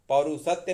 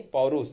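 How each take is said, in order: First: पौरुषत्व with TVA on the end; wrong form पौरुषत्व. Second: पौरुष without TVA on the end; correct form पौरुष. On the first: Teacher rejects the longer word, mistaken form. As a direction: say पौरुषत्व, pau-rush-tva. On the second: Teacher corrects पौरुषत्व, shorter form. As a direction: say पौरुष, pau-rush. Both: Shown as a demonstration. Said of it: "पौरुषत्व नहीं".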